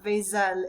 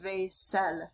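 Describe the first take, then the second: First: The middle consonant is a buzzing Z sound. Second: The middle consonant is a hissing S sound. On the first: The speaker calls it wrong. "not a Z sound. So it's not vaisselle" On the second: The speaker calls it right. "it makes an S sound"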